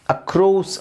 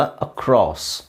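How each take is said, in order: First: ಅಕ್ರೋಸ್ with a long round o; wrong o vowel. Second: ಅಕ್ರಾಸ್ slowly with a long first aa and a short o; correct short o. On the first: Teacher showing the wrong ಅಕ್ರೋಸ್. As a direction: say ಅಕ್ರೋಸ್ with an oh sound. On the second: Teacher modelling the right ಅಕ್ರಾಸ್ slowly. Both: Shown as a demonstration. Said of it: "ಅಕ್ರೋಸ್ ಅಲ್ಲ".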